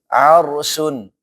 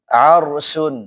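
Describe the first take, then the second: No difference in how they are said.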